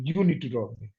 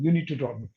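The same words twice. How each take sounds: First: The stress is on the word you. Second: It is said as a plain, neutral statement.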